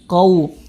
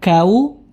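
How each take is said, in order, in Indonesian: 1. Ia dimulai dengan bunyi q yang berat di bagian belakang. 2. Ia dimulai dengan bunyi k yang ringan di bagian depan. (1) "tapi sempurnakan qa qau qau" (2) "jangan sampai kau atau ku"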